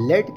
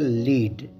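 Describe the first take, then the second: First: The vowel is a short e sound. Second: The vowel is a long ee sound. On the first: It means a kind of metal. "इसी लफ्ज को जब हम लेट pronounce करते हैं तो इसकी मीनिंग बदल जाती है" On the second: It means to guide or show the way. "अगला लफ्ज है लीड"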